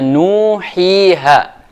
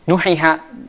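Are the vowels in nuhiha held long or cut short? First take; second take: long; short. First: The vowels are held long. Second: The vowels are all cut short. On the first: The speaker calls it right. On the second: The speaker calls it wrong.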